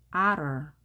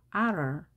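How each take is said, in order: The two takes are said the same way.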